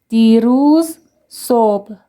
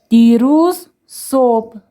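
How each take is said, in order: The two takes are said the same way.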